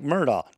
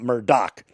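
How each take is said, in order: First: The name ends without a k sound. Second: The name ends with a k sound. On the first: The speaker calls it right. "The G-H is silent and no K sound" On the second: The speaker calls it wrong. "not Murdoch"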